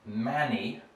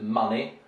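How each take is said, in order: First: The first vowel sounds like the 'a' in cat. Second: The first vowel is a short open 'uh' sound. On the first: The speaker calls it wrong. "Russians have a tendency to pronounce this as manny" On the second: The speaker calls it right. "You want a kind of ah sound. So this is money"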